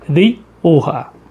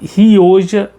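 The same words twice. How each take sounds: First: It is said with a Spanish pronunciation. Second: It is read the Portuguese way, as spelled. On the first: "a pronúncia que os espanhóis sempre utilizam" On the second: "A gente se escreve como é Rioja"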